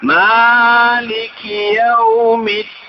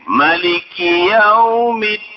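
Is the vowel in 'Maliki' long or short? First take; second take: long; short. First: The first vowel of Maliki is held long. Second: The first vowel of Maliki is kept short. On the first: "Boleh sampai baca panjang" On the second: "Boleh sampai baca pendek"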